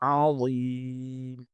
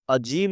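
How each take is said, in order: First: The middle consonant is a z sound. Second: The middle consonant is a j sound. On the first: The speaker calls it right. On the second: The speaker calls it wrong. "अजीम नहीं है"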